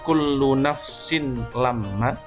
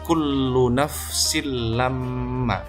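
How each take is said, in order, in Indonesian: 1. Bunyi n tetap dibaca sebelum l. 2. N melebur ke l tanpa dengung. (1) "kita menemukan contoh"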